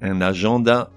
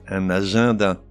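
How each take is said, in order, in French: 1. La voyelle du milieu se prononce comme « in ». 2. La voyelle du milieu se prononce comme « an ». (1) "On ne dit pas"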